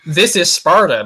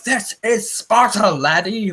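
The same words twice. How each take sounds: First: Mock Spartan battle cry, slow; a hammed-up movie-trailer shout. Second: Much higher, slow, hammed-up Scottish accent; Scottish-accented parody of the movie line; mock Scottish accent. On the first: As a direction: belt the famous line like the film, drawn out. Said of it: "You know". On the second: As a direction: turn the Spartan cry into a Scottish brogue. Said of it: "it sounds that Celtic when he says it".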